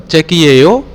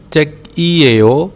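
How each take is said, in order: First: The pitch rises at the end like a question. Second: The pitch falls at the end like a statement. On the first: Is it a book? "apakah buku, ya, tergantung penekanan" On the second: It is a book. "adalah buku"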